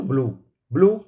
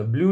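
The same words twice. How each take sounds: First: ब्लू as "bloo", no y-glide; l straight into a long oo in ब्लू; correct plain oo pronunciation. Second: ब्लू said as "blyoo"; wrong y-glide pronunciation. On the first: Teacher answering the class, ब्लू as a clean "bloo". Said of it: "क्या बोलेंगे?". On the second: Teacher showing what not to say, ब्लू as "blyoo". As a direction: slip a y sound after the l in ब्लू. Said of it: "ब्लू नहीं बोलेंगे". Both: Shown as a demonstration.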